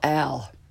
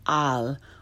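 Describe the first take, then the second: First: The A has an English-sounding vowel. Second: The A is an open 'ah' sound. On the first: The speaker calls it wrong. "which far too many people call al" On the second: The speaker calls it right. "a cognate like al"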